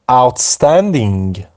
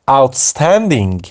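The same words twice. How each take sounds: The two takes are said the same way.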